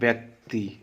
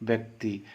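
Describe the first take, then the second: Both takes have the same delivery.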